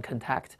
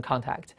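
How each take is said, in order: First: "contact" stressed on TACT, first syllable reduced; weak first syllable, punch the second in "contact"; verb stress on second syllable. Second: "contact" stressed on CON, full open vowel; noun stress on first syllable. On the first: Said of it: "动词读成contact". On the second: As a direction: say "contact" as KON-takt. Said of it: "名词读成contact". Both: Shown as a demonstration.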